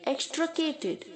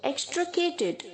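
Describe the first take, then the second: Both takes have the same delivery.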